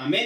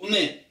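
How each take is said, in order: First: Said in the usual way. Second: "amém" with its opening A eaten; first A swallowed. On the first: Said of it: "em vez de falar amém". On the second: Shown as a demonstration. Teacher demonstrating the rushed blessing response, "amém" with A swallowed. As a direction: say "amém" hurriedly, swallowing the initial A. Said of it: "Ele comeu o A, engoliu o A".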